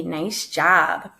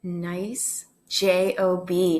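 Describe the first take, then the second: First: Said in the usual way. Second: Spelled out slowly. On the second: Real, not acted.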